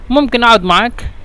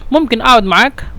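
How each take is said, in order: No difference in how they are said.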